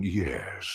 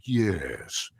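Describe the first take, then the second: First: Hopkins-like yes. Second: Slow, drawn-out villain yes; stretched-out yes. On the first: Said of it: "the Anthony Hopkins thing". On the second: Actor shows how he stretched the Megatron yes, slowly. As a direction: let the yes hiss out slowly. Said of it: "but I did stretch it out". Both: Shown as a demonstration.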